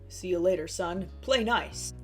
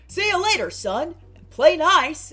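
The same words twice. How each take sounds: First: It is said in a plain voice. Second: It is said in a sports-person put-on voice.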